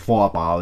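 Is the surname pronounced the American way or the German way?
German. The name is said with a German pronunciation. The speaker calls it right. "pero es Foapal, es un apellido alemán"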